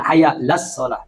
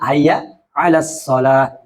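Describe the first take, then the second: First: The 'ain sound is dropped and vowels merge. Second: A throaty 'ain sound separates the vowels. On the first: The speaker calls it wrong. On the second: The speaker calls it right.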